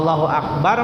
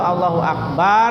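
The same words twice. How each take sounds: First: The vowel after the b is short. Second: The vowel after the b is long. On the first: God is the greatest. The speaker calls it right. "Allah Maha Ber" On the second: God owns drums and loud instruments. The speaker calls it wrong. "Allah nu ngabogaan sama alat-alat"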